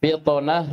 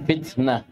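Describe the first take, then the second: First: Heavy, bouncing T in فطنة; emphatic ṭā'. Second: Thin, front T in فتنة; light tā'. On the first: Teacher leads class reading together, emphatic T. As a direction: say فطنة with a backed, dark T. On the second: Teacher leads class reading together, light T. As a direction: say فتنة with a plain dental T. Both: Shown as a demonstration. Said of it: "فرقوا بين الطاء والتاء".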